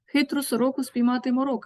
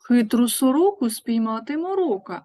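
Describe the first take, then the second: First: It is said at the fastest pace. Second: It is said at a faster pace. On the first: "І ще швидше" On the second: "Швидше"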